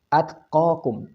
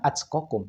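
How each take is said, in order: First: The t is released softly without extra burst. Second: The t bursts strongly, almost like a ch. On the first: The speaker calls it right. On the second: The speaker calls it wrong. "bukan at kokum"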